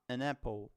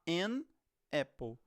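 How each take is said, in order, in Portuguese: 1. O n emenda direto com a palavra seguinte. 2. O n está separado da palavra seguinte. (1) "Você vai falar an apple" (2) "você não vai falar an apple"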